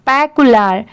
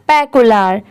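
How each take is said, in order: No difference in how they are said.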